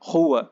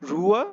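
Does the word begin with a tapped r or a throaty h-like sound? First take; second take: throaty h; tapped r. First: The word begins with a throaty h-like sound. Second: The word begins with a tapped r sound. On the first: "এইভাবে ঘয়ের মতো করে" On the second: "তো এটার উচ্চারণ হবে রুয়া"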